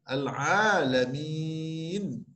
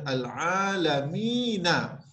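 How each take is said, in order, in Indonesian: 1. Kata ini berakhir pada konsonan mati. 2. Kata ini berakhir dengan bunyi vokal tambahan. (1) "kalau waqaf, nun ini kita baca dengan nun yang mati" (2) "Tidak boleh dibaca al-alamina sekiranya kita nak berhenti"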